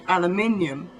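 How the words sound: It is said with a British accent. "we say aluminium"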